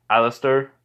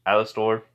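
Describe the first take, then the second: First: "Alistair" with the last syllable reduced to "-ter"; his own way of saying it. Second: "Alastor" said AL-uh-stor, with a full "stor" at the end; "Alastor" with a clear final "-stor"; proper pronunciation. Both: Shown as a demonstration. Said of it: "I don't know why I say it with an accent".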